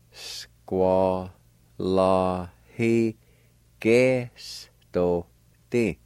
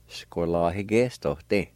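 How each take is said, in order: First: Squalahigestote stretched out very slowly, syllable by syllable. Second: Said in the usual way. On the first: Shown as a demonstration. Teacher demonstrating Squalahigestote for learners, very slow and broken up. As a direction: draw out every syllable of Squalahigestote with gaps between. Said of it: "pronounce them out kinda slow". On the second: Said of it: "Gradually speed up your pronunciation".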